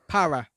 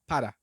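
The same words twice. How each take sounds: First: The R is a smooth English-style R sound. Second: The R is a quick tap close to D. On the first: The speaker calls it wrong. "that's how we would pronounce it in English. You would say para" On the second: The speaker calls it right. "but in Spanish it would be para"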